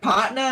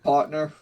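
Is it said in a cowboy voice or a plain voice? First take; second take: cowboy; plain. First: It is said in a drawling cowboy voice. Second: It is said in a plain, non-cowboy voice.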